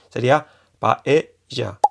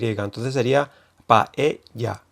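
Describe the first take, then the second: First: The middle consonant is an English J sound. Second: The middle consonant is a Y sound. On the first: "como la J catalana o del inglés" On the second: "que hay yeísmo y se pronuncia con Y"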